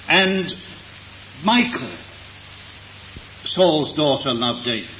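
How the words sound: The stress falls on the name Michal. It was this particular daughter who loved him. "To emphasize which of Saul's daughters it was who loved David, it was Michal"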